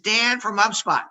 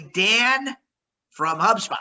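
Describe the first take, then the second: First: The phrase is said at a quicker pace. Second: The phrase is said at a slower pace.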